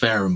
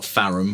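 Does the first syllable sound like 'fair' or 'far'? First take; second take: fair; far. First: The first syllable sounds like 'fair'. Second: The first syllable sounds like 'far'. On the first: The speaker calls it right. "It's Charles Fairham, by the way" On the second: The speaker calls it wrong. "not Farham. I was mispronouncing it earlier"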